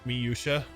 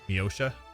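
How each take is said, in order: First: The first syllables are said separately. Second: The first syllables are run together.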